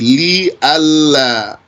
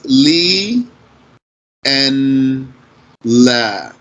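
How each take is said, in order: First: The n blends into the l sound. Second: The n is pronounced before the l. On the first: "if you blend the noon into the lam" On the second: "the origin of that is Li and La"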